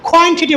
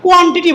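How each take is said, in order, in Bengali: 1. প্রথম k ধ্বনিটি মহাপ্রাণ, kh-এর মতো। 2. প্রথম k ধ্বনিটি সাধারণ, মহাপ্রাণ নয়। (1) "কিউ এর সাউন্ড খ" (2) "কখনোই কোয়ান্টিটি বলে না"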